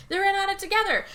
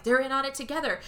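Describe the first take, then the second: First: Higher and louder insistent repeat; husband convinced of a plot, repeat louder; building paranoia. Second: Said in the usual way. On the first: Retold or imitated. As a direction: say it again more frantically.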